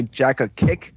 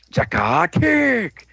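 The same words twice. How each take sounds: First: Said in the usual way. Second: Slow, high drawn-out move name; mock attack call. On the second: Storyteller acting out the team's kick, high slow battle cry.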